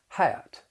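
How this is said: The short vowel glides into an uh sound. "In the South, I would say hat. I'm going to follow it with that off-glide schwa"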